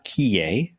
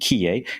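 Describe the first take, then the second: First: The name is said with French pronunciation. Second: The name is said with English pronunciation.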